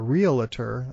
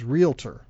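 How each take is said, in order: First: It is said with an extra middle syllable. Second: It is said without an extra middle syllable. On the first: The speaker calls it wrong. "people often put in an extra A, an extra syllable here" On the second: The speaker calls it right. "but the word is realtor"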